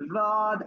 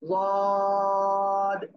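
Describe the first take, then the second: First: The consonant sounds like a plain, light d. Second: The consonant sounds heavy, thick and emphatic. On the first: The speaker calls it wrong. "দদ আমি এরকম বলতেছি, বলতেছি না" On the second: The speaker calls it right. "জিহ্বার গোড়ার কিনারা উপরে মাড়ির দাঁতের গোড়ার সাথে লাগাবো"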